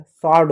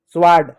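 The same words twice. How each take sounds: First: स्वॉर्ड with silent w; s straight into the vowel in स्वॉर्ड; correct pronunciation. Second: स्वॉर्ड with the w sounded; "swaad", s into w in स्वॉर्ड; wrong pronunciation. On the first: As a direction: say स्वॉर्ड as "saad". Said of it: "स्वॉर्ड होता है". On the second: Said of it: "गलत होता है". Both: Shown as a demonstration.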